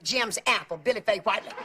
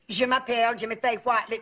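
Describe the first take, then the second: First: Je m'appelle sounds like English 'Jim's Apple'. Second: Je m'appelle has a French pronunciation. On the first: The speaker calls it wrong. "he would always pronounce it Jim's Apple" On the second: The speaker calls it right. "try and get him to say his name in French"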